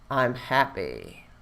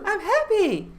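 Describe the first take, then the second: First: It is said in a sad, gloomy tone. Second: It is said in a cheerful, excited tone. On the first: "say I'm happy in a sad way"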